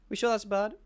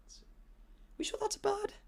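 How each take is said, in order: First: Said in the usual way. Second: Breathless whispered question in the dark; hushed, frightened whisper; scared whisper. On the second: Retold or imitated. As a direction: whisper it like something's behind you.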